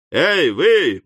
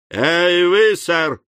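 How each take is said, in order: First: Louder, ruder call; rougher shout. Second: Sharp, loud call across the yard; fierce shout. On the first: Sam calling the stranger again, rougher. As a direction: snap it out coarser. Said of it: "повторил Сэм ещё грубее". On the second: Sam hailing the stranger, a fierce shout. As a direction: bark it out to stop him. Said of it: "свирепо крикнул Сэм". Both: A narrator's reading.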